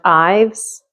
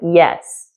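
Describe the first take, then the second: First: The name begins with the vowel of 'eye'. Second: The name sounds like the word 'yes'. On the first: "like Ivan" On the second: "like this, like yes"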